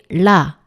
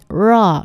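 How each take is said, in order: First: The consonant is a light forward tongue tap. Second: The consonant is a curled English-style r. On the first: The speaker calls it right. "혀 앞쪽에 힘을 주시고 이 바깥쪽으로 탁 쳐낸다는 느낌으로" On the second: The speaker calls it wrong. "영어의 R처럼 라, 르 하고 안으로 말리는 게 아니라"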